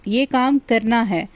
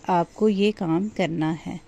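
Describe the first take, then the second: First: It is said in a loud, raised voice. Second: It is said in a soft, gentle voice.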